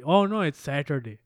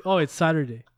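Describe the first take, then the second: First: South Asian accent on SATURDAY; brown accent. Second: Said in the usual way. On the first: Shown as a demonstration. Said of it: "say it with a brown accent". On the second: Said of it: "You know, it won't be".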